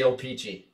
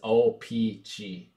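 First: The name is rushed and run together quickly. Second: The name is said carefully with clear syllables. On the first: The speaker calls it wrong. "I blow through it and say Opeachy" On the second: The speaker calls it right. "I think the correct pronunciation is Opeachy"

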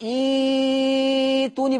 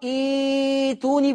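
First: The long vowel is held for very long. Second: The long vowel is held for medium length. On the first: "بالإشباع" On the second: "بالتوسط"

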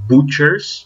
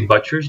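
First: The first vowel sounds like the vowel in 'put'. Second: The first vowel sounds like the vowel in 'but'. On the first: The speaker calls it right. "but butchers" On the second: The speaker calls it wrong. "We don't say butchers"

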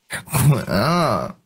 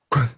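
First: It is said in a coy, pouting way. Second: It is said in a frightened way. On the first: "撒娇" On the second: "害怕。"

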